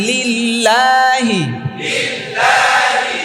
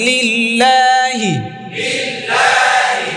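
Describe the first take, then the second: The two takes are said the same way.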